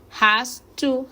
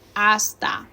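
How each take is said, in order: First: The phrase is said in its full form. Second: The phrase is reduced to 'hasta'.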